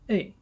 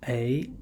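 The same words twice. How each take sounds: First: The pitch falls sharply from high to low. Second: The pitch rises from middle to high.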